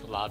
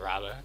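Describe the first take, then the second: First: The word begins with an L sound. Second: The word begins with an R sound. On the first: "the way Chinese people say L instead of R" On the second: "instead of Rabba"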